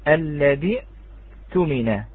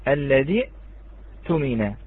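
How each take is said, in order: Both takes have the same delivery.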